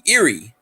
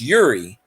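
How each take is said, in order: First: The name begins with an 'ear' sound. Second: The name begins with a 'you' sound. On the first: This is how the locals say it. "they pronounce it Erie. Like Erie" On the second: This is how the spelling reads. "but it's Uri"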